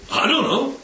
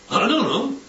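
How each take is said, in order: First: Cheeky back-talk on I don't know, don't leaned on; mild mock insolence; insolent. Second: Second I don't know, still lightly cheeky; a hint of a sulky kid; insolent. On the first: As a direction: answer back like a sulky kid. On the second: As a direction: shrug it off at God. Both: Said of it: "It's insolence".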